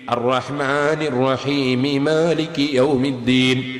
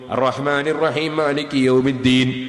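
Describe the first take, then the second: First: The final m of rahim takes an i vowel. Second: The final m of rahim has no vowel. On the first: The speaker calls it right. "മീമിന് കസ്ർ ചെയ്തിട്ട് മാലികി യൗമിദ്ദീൻ എന്ന് എടുത്തു ഓതണം" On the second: The speaker calls it wrong. "ഒരു മീമ് നഷ്ടപ്പെട്ടു പോയി"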